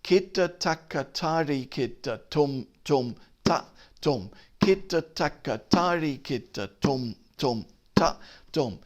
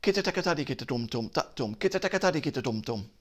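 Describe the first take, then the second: First: Said in the usual way. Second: Rapid konnakol syllables, quick and light; fast syllables. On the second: Shown as a demonstration. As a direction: rattle them off fast. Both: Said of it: "so the syllables would change".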